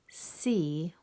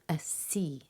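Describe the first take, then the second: First: The word starts directly with the s sound. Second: A short eh vowel comes before the s. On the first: The speaker calls it right. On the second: The speaker calls it wrong.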